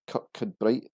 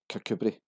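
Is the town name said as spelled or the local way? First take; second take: spelled; local. First: Every letter of the spelling is sounded out. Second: It is said in a shortened local form. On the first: This is what the spelling suggests. The speaker calls it wrong. "Its name suggests Kirkcudbright is an obvious pronunciation" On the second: This is how residents say it. The speaker calls it right. "Locals actually pronounce this as Kirkcudbright"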